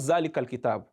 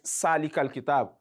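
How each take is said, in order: First: The first word begins with a buzzing z sound. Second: The first word begins with a hissing s sound. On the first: "It's not Zalikal kitab" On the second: "you hear people recite Salikal kitab. That is wrong"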